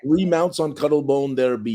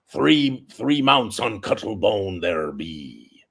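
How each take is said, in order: First: It is said in a normal voice. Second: It is said in a pirate voice.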